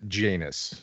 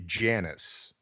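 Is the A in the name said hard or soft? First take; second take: hard; soft. First: The A in the name sounds hard. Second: The A in the name sounds soft. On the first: This is how the film's characters say it. "everyone in the movie pronounces it Janus" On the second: This is how the speaker expected it. "I thought it would be Janus"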